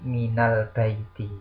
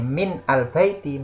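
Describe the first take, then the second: First: Min joins al with an added a vowel. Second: Min and al are said as separate words.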